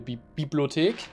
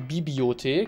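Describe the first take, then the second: First: The word is said with its L sound. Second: The word is said without its L sound.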